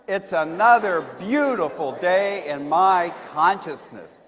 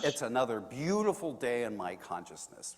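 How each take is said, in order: First: It is said with more energy and liveliness. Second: It is said with ordinary, calm energy.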